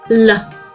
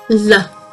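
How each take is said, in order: Both takes have the same delivery.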